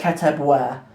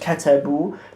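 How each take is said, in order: First: The word ends with a pronounced 'wa' sound. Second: The word ends with a plain 'oo' sound. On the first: The speaker calls it wrong. "you don't say ketebwa" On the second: The speaker calls it right. "it's just ketebu"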